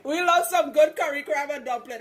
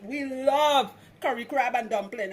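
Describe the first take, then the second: First: Fuller Trinidadian accent, louder and lifted; hammed-up Trinidadian accent, pitched up and loud. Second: Light Trinidadian lilt on the phrase; easy Trinidadian accent, a bit louder. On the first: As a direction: lean into the Trini accent with relish after a laugh. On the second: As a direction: say it like a Trini would at home. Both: Shown as a demonstration. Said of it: "I say that in my Trinidadian accent".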